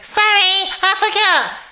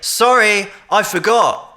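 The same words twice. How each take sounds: First: It is spoken in a very high voice. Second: It is spoken in his normal chest voice. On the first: "he wasn't talking really high" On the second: "in my voice"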